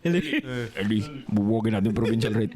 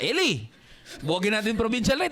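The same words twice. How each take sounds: First: It is said in a deep, demonic put-on voice. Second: It is said in an ordinary speaking voice.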